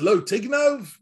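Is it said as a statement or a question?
question. It is said as a rising question.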